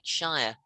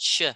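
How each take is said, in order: First: It has a full 'shy-er' vowel. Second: It is cut down to a short 'sh' sound. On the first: The speaker calls it wrong. "we don't pronounce it like Shire" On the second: The speaker calls it right. "It's sh"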